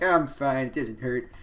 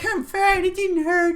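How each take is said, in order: First: It is said in a deep, manly voice. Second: It is said in a childlike put-on voice.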